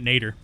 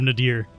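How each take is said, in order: First: It sounds like 'nay-der'. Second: It sounds like 'nah-deer'. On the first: This is the speaker's habitual, deliberately off pronunciation. "I'm going to keep pronouncing it Nader" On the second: This is the pronunciation others expect. "Instead of Nadir"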